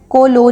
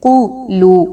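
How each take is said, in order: First: The vowels sound like long 'o'. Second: The vowels sound like long 'oo'. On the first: The speaker calls it wrong. "को लो नहीं कहना" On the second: The speaker calls it right. "बल्कि क़ुलू"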